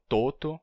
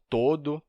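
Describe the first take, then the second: First: "toto" with t twice, TO-to. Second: "todo" with a voiced d, TO-do; D sound. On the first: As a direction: say "toto" with t in place of d. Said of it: "como um tipo de T". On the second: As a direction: say "todo" with d in the second syllable. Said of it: "o D seria entendido". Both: Shown as a demonstration.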